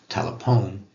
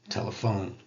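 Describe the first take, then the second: First: The p and h are sounded separately. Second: The p and h together sound like f. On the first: It follows isiZulu spelling rules. "telephone in isiZulu" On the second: It follows English spelling rules. "telephone in English"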